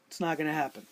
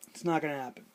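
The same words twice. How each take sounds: The two takes are said the same way.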